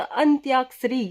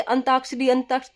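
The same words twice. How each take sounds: First: अंत्याक्षरी said with a half न and a half त followed by य; अंत्याक्षरी, with the य clearly said after the त; correct pronunciation. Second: अंताक्षरी said without the य sound, as अंताक्षरी; अंताक्षरी, with a plain त and no य; wrong pronunciation. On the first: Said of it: "शब्द होता अंत्याक्षरी". (अंत्याक्षरी सही उच्चारण में) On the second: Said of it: "अंताक्षरी कोई शब्द नहीं होता". (अंताक्षरी बिना य के) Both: Shown as a demonstration.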